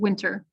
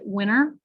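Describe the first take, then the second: First: The T sound in the middle is pronounced. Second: The T sound in the middle is dropped. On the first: The speaker calls it right. "or you can say it correctly as you did" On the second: The speaker calls it wrong. "you could mispronounce winter and pronounce it winter"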